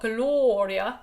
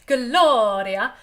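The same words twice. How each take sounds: First: The vowels sound dull and darker. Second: The vowels sound bright and open. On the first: The speaker calls it wrong. "not Gloria" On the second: The speaker calls it right. "all of the vowels can be bright and happy. So Gloria"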